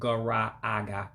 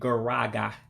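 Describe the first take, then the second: First: Both meeting vowels are pronounced separately. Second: The two meeting vowels merge into one. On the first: The speaker calls it wrong. "instead of gara aga" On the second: The speaker calls it right. "you hear me saying garaga"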